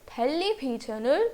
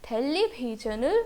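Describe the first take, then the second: The two takes are said the same way.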